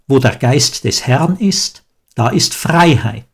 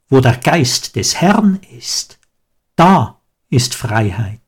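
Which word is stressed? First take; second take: Freiheit; Geist. First: The stress falls on the word Freiheit. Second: The stress falls on Geist des Herrn. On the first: Freedom is the goal to strive for. "Gerade habe ich ihn so betont" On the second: Freedom is a gift given by the Spirit. "Man kann den Satz aber auch anders betonen"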